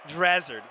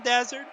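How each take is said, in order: First: The name is said with an R after D. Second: The name is said without an R after D. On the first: The speaker calls it right. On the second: The speaker calls it wrong.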